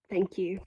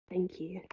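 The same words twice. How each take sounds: First: Said in the usual way. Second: Barely voiced, breath-only thank you; a soft, choked whisper of "Thank you". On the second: Real, not acted.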